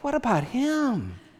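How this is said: The question sounds warm and affectionate. Caring concern for a dear brother. "the more gracious among us might hear him saying"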